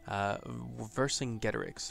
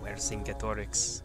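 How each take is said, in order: First: It is pronounced in an anglicized way. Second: It is pronounced in a Latin-like way.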